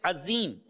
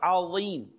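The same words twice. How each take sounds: First: The middle consonant is a plain z sound. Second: The middle consonant is a heavy emphatic sound. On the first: The speaker calls it wrong. "if someone says azim instead of azim with a za" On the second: The speaker calls it right. "what is the correct word?"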